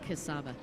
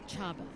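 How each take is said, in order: First: The name begins with a 'k' sound. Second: The name begins with a 'ch' sound. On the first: The speaker calls it wrong. "I keep saying Kasaba" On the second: The speaker calls it right. "the real way to say that is Chaba"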